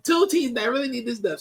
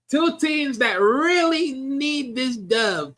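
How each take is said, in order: First: Said in the usual way. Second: Slow, drawn-out and higher, savouring each word; slow dramatic emphasis, much higher pitch; drawn-out hype. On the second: Acted. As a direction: stretch it out like a big announcement. Dramatic hype of a big matchup.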